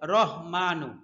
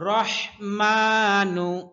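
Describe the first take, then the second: First: The h is a light, plain h sound. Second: The h is a strong h from the throat. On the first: The speaker calls it wrong. "বেশিরভাগ মানুষ বলে রহমানু, সম্পূর্ণ ভুল" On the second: The speaker calls it right. "হায়ের উচ্চারণ স্পষ্ট করতে হবে, কণ্ঠনালীর মধ্যখান থেকে"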